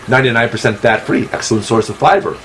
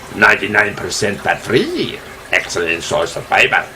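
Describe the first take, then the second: First: It is said in a plain, ordinary accent. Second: It is said in a put-on French accent.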